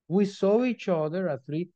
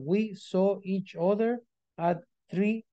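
First: The words flow together without pauses. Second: There is a pause after every word. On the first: The speaker calls it right. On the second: The speaker calls it wrong.

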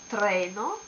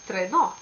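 First: The stress is on the first syllable. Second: The stress is on the last syllable. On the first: The speaker calls it right. "the accent as before is on this syllable" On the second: The speaker calls it wrong. "It sounds so French"

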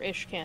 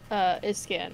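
First: The middle consonant is an sh sound. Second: The middle consonant is a plain s sound. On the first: The speaker calls it right. "Iskan or Ishkan, as you guys prefer" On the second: The speaker calls it wrong. "Iskan or Ishkan, as you guys prefer"

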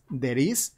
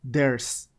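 First: It is said as two separate words. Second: It is said as one contracted word. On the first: "como palabras separadas" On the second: "como una sola palabra, una palabra junta"

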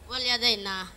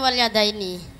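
First: The word ends with the syllable 'na'. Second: The word ends with the syllable 'ni'. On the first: The speaker calls it wrong. "Wal yadaina kan mestinya" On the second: The speaker calls it right. "mestinya wal yadaini seperti yang sampean diajarkan"

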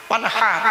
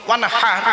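No difference in how they are said.

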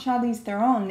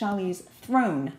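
First: The surname is said with two syllables. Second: The surname is said with one syllable. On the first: The speaker calls it wrong. "It's not Charlize Theron" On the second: The speaker calls it right. "It's Charlize Throne"

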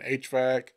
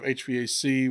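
First: The word is said in a stiff, mechanical way. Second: The word is said in a normal, natural way. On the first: The speaker calls it wrong. "like real mechanically" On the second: The speaker calls it right. "where it's kind of normal"

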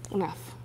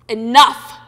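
First: It is said in a depressed, low tone. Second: It is said in an angry tone.

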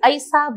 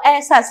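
First: The first vowel has the shifted dialect quality. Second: The first vowel has the standard Hindi quality. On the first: "Bagheli के प्रभाव से ऐ में उच्चारण होता है" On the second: "ऐसा से"

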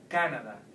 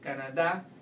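First: The stress is on the first syllable. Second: The stress is on the last syllable. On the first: It sounds like the English word. "If you try at the top here in ca, it would sound more like English" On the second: It sounds like the Spanish word. "If you put it at the end, ... it would sound more like Spanish"

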